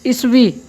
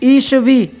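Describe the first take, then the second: First: The first vowel is short and clipped. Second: The first vowel is long and drawn out. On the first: "अगला उच्चारण" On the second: "बड़ी मात्रा में"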